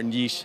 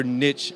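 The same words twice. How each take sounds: First: Niche with long ee, soft sh; niche as "neesh". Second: Niche rhymed with rich; niche as "nitch". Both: Shown as a demonstration. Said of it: "however you wanna say it".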